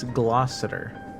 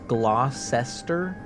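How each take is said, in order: First: It is said in a short, reduced form. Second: It is said as spelled, every syllable sounded. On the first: The speaker calls it right. "but it's Gloucester" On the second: The speaker calls it wrong. "It looks like it says Gloucester"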